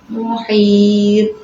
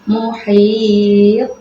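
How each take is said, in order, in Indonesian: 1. Konsonan akhirnya berhenti datar tanpa gema. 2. Konsonan akhirnya dilepas dengan gema memantul. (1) "Gitu saja, tidak ada pantulan, ini tidak boleh" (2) "ada pantulan huruf qol-qolahnya"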